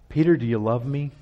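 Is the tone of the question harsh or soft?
soft. The question is said in a soft tone. The speaker wants to gently touch the listener's heart. The speaker calls it right. "A soft answer or a soft manner"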